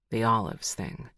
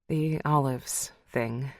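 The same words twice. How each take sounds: First: Lower, knowing male voice; Connor's voice. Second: Slow echo. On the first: Connor naming her old hang-up, low and dry. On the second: Lucy echoing Connor's words, slow and wry. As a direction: draw the phrase out with a tired half-smile. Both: Acted.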